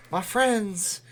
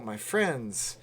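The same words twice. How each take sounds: First: Lightly voiced preacher, a bit higher; a hint of an evangelical preacher calling out; fiery preacher sermon. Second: Said in the usual way. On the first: Shown as a demonstration.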